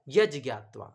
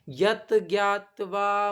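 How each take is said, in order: First: The first word ends in a j sound. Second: The first word ends in a t sound. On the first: The two words are joined together. The speaker calls it right. "तो सही क्या है" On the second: The two words are read separately. The speaker calls it wrong. "अलग अलग पढ़ेंगे तो ऐसे भी पढ़ सकते हैं"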